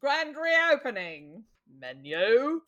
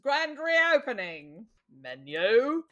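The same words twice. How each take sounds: First: It is said in a put-on accent. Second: The same.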